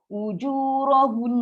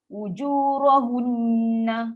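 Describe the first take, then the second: First: It ends on a held nasal n sound. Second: It ends on an open na vowel. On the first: The reading stops here. The speaker calls it right. "Kena maintain dengung ni" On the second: The reading carries on without stopping. The speaker calls it wrong. "nak berhenti pun dia ada guna kat baris"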